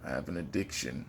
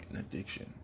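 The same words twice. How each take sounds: First: Said in the usual way. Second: Whispered echo, much softer. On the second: Real, not acted. Fight fan whispering his addiction to the viewers. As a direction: breathe it as a secret.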